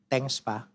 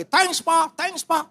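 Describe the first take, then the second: First: Flat "Thanks, Pak." with no expression at all; expressionless. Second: High, eager "Thanks, Pak, thanks, Pak."; excited thanks. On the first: Eldest son thanking father, expressionless "Thanks, Pak.". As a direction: toss off "Thanks, Pak." like it means nothing. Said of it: "Tanpa ekspresi". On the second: Youngest son leaping up to thank father, excited. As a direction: gush "Thanks, Pak" like a child jumping with joy. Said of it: "langsung loncat dia. Cium saya berkali-kali". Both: Retold or imitated.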